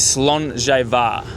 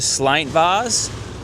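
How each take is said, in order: First: The name is said in three syllables. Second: The name is said in two syllables. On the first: This is the proper Gaelic pronunciation. The speaker calls it right. "the proper way to say it" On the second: This is one person's interpretation of the spelling. The speaker calls it wrong. "Bruce used to call her Slaintvars"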